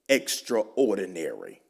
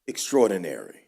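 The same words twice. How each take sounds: First: It is said as two separate parts. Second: It is said as one blended word.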